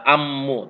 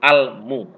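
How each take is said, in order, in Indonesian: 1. Bunyi l menyatu menjadi bunyi m yang ganda. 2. Ada bunyi l yang jelas sebelum m. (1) "Enggak ammu" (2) "tapi almu"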